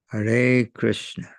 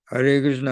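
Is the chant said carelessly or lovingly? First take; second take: lovingly; carelessly. First: The name is said with warm, attentive feeling. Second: The name is rattled off mechanically, without feeling. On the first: Each name is offered with devotion. The speaker calls it right. "With priti. With love" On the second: It is done as a routine duty. The speaker calls it wrong. "in a hackneyed manner"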